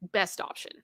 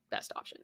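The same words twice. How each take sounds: First: Said in the usual way. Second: Whispered echo to herself. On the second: Real, not acted. Repeats phrase, second time whispered.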